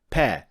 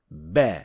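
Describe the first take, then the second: First: The consonant is voiceless, like English p. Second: The consonant is voiced, like English b. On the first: The speaker calls it wrong. "pronouncing it as a voiceless sound" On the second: The speaker calls it right. "the proper be is actually a voiced sound"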